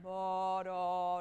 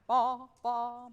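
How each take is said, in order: First: The legato way they just played it; tenuto. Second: Ba, ba punched loud and separated, a strong attack on each; accented. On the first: Conductor imitating the band's tenuto playing. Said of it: "which is like a tenuto". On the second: Conductor showing the accent he wants, against the tenuto. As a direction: hit every ba hard. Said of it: "and I went ba". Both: Shown as a demonstration.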